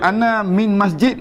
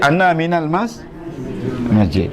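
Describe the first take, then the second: First: Min is said alone with no added syllable. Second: Min is linked onward with an added al. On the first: The speaker calls it wrong. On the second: The speaker calls it right. "Kena baca ana minal mas masjid"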